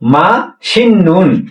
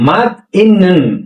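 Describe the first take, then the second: First: An 's' sound starts the second syllable. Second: A 't' sound ends the first syllable. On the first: The speaker calls it right. "সাংসিয়তটাও যথাক্রমে নিয়নে ন উচ্চারণ হবে" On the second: The speaker calls it wrong. "ঠিক হলো? কিন্তু যে বাস্তবের রুল অনুযায়ী"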